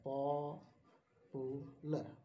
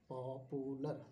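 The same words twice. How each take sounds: First: popular stretched very slowly, syllable by syllable; slow syllable split. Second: Said in the usual way. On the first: Shown as a demonstration. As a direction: draw out popular, each syllable separate. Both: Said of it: "ये तीन syllable word है".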